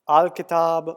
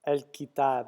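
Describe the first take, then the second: First: The first syllable sounds like 'ahl' with a full vowel. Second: The first syllable sounds like 'el' with a lighter vowel. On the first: The speaker calls it wrong. "Sorry about my pronunciation" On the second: The speaker calls it right. "pronounce the L like more like an E L almost"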